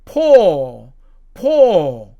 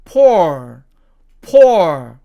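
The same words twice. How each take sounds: First: POOR as "paw", no r; British poor. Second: POOR punched out with a final r; American poor. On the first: Teacher showing British pronunciation, POOR without r. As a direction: hold the open vowel of POOR and drop the r. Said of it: "영국식으로 발음을 하면". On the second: Teacher showing American pronunciation, POOR with clear r. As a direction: end POOR on a curled r. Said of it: "미국식으로 발음을 하면". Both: Shown as a demonstration.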